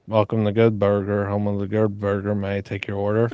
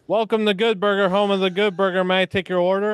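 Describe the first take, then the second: First: It is said flatly, with little energy. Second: It is said with more energy and oomph.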